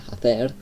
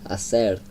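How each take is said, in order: First: The c is not said like an s. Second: The c is said more like an s. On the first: This is how it is said in Spain. "in Spain they pr pronounce it like I did" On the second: This is how it is said in another country. "like the C, like more of an S"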